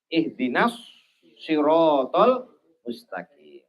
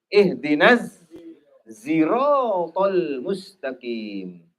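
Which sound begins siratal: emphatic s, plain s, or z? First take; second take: emphatic s; z. First: Siratal begins with a heavy, emphatic s sound. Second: Siratal begins with a buzzing z sound. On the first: "menggunakan shad" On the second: "diganti dengan huruf zai"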